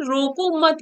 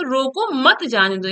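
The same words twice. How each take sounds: First: रोको मत run together as one phrase, break after मत; comma after मत. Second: Short break after रोको, then मत जाने दो together; comma after रोको. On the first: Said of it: "यहाँ कॉमा लगा है तो". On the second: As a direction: set off रोको, join मत to जाने दो. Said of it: "लेकिन दूसरा है रोको, यहाँ पे कॉमा लगा है". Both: Shown as a demonstration.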